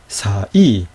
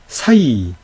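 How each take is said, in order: First: 사, a small pause, then 이; vowels separated. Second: 사이 glided together in one sweep; one unbroken, drawn-out 사이; diphthong as one. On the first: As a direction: split 사이 into two clear syllables. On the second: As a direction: join 사 and 이 without a gap. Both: Shown as a demonstration. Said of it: "분명히 다르죠?".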